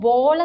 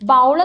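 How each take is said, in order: First: The vowel sounds like 'oh' in go. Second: The vowel sounds like 'ow' in cow. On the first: The speaker calls it right. "ബോൾ എന്നാണ് correct pronunciation" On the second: The speaker calls it wrong. "നമ്മൾ ബൗൾ എന്നാണ് പലരും ഉച്ചരിക്കുന്നത്"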